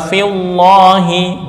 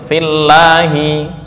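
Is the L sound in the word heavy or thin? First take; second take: heavy; thin. First: The L sound is heavy and full. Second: The L sound is thin and light. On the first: The speaker calls it wrong. "enggak boleh dibaca fillahi" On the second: The speaker calls it right. "harus fillahi"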